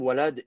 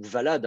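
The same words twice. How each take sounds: First: "walad" with an initial W glide; W pronunciation. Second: "valad" with W turned into V; V pronunciation. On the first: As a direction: say "walad" starting on a rounded W sound. (« walad » prononcé avec un W initial) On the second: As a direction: start "valad" on a buzzed V, not a W. (« valad » prononcé avec un V initial) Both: Shown as a demonstration. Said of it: "si vous prononcez le W par un V".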